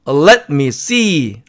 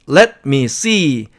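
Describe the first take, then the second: The two takes are said the same way.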